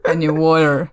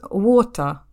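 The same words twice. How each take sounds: First: American WATER with a tapped T and R; American pronunciation. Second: British WATER with no R at the end; British pronunciation. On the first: Contrasting it with the British version, American accent. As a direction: say WATER the American way, sounding the final R. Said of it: "огромное отличие от американского произношения". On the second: Showing co-host how water sounds in British, British accent. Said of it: "на британском вода это будет". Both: Shown as a demonstration.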